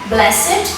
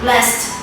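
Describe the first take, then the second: First: The ending is a separate syllable, like 'id'. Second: The ending is a plain 'd' or 't' sound. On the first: It is used as an adjective. "The last syllable is pronounced it in place of d or t, as in blessed, adjective" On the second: It is used as a verb. "and not blessed, verb"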